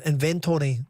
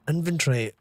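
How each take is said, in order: First: "inventory" with a full TORY ending; Tory pronunciation. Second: "inventory" squeezed short, with no TORY; usual pronunciation. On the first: Comparing two ways to say it, inventory with Tory in it. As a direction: say "inventory" as in-ven-TORY, every syllable sounded. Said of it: "you've got the Tory at it". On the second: Weighing up how to say a word, inventory as INVEN-tree. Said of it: "I just pronounced it". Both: Shown as a demonstration.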